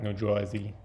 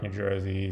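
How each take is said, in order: First: New Jersey said as "Joisey"; New Jersey accent. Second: Said in the usual way. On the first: Shown as a demonstration. Vlogger demonstrating the accent of the character, New Jersey accent. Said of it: "a little bit of all of that". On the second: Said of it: "more like East Coast".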